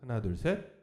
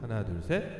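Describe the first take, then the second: First: The voice has a studio-style reverb. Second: The voice has a live-room reverb. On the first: "스튜디오 모드" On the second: "라이브 모드"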